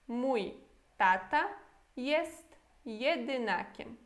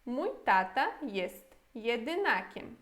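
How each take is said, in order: First: Mój, tata, jest jedynakiem each set apart by pauses, slowly; word by word. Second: Said in the usual way. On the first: Shown as a demonstration. Teacher repeats the sentence for learners word by word, slow. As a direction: break the sentence into single words with pauses. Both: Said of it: "E a frase toda?".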